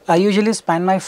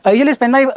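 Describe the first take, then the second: First: It flows slowly and evenly without breaks. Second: It breaks off into a hesitant pause. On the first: The speaker sounds composed and fluent. The speaker calls it right. "Go slow, but go at a rhythmic speech, something like this" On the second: The speaker sounds unsure of what to say. The speaker calls it wrong. "what people end up doing"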